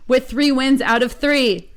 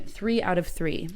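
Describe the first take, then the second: First: Three wins out of three said slower, louder and higher, three stressed; clear retake. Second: Said in the usual way. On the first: Shown as a demonstration. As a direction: read three wins out of three again cleanly, slowly, punching three. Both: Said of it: "Ugh, one more time".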